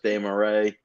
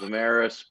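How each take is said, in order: First: The surname is said with French-style pronunciation. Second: The surname is said with English-style pronunciation. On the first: This is the original pronunciation from the home country. "the French like pronunciation is Desmarais" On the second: This is how the speaker says his own name. "I I pronounce the last name Damaris"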